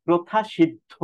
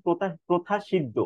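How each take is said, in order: First: প্রথা সিদ্ধ ending in breathy "dho"; correct aspirated pronunciation. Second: প্রথা সিদ্ধ without aspiration, "shid-do"; imitated mispronunciation. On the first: Shown as a demonstration. Teacher corrects the mistake, aspirated pronunciation. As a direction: aspirate firmly: pro-tha shid-dho for প্রথা সিদ্ধ. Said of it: "মহাপ্রাণ". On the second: Teacher imitates students' mistake, wrong pronunciation. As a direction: end প্রথা সিদ্ধ on an unbreathed do. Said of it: "অনেকে উচ্চারণ করেছে".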